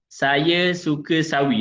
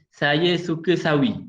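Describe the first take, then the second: First: The s sounds are clear and crisp. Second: The s sounds come out as a lisp.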